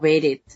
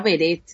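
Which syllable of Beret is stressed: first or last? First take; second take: first; last. First: The stress is on the first syllable. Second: The stress is on the last syllable. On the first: The speaker calls it wrong. "no Beret" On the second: The speaker calls it right. "sería Beret"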